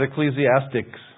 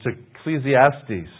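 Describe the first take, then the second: First: The word ends with a k sound before s. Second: The word ends without any k sound. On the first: The speaker calls it wrong. "There's no C on the end. It's not Ecclesiastics" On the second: The speaker calls it right. "It's Ecclesiastes"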